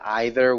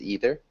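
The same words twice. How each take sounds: First: The word is said with a British pronunciation. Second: The word is said with an American pronunciation. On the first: "You said either, which is um, again more British pronunciation" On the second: "the American pronunciation is either"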